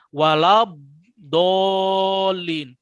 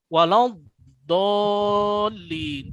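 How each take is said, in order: First: The lips close, adding a b sound. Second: The lips stay open, with no b sound. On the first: The speaker calls it wrong. "ketika ada walabdolin berarti dia nyangkut dulu di mulut. Nah, mulutnya itu nutup dulu" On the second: The speaker calls it right. "Seharusnya enggak. Bibirnya jangan ditutup"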